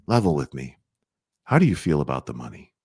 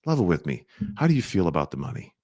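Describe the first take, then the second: First: Low, calm, direct money question; level with them calmly; low calm question about money; frank, gentle ask. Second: Low, calm, a touch quicker; calm direct money question; frank, gentle ask. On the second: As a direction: ask it straight but easy. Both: Shown as a demonstration. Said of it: "That's how you bring it up".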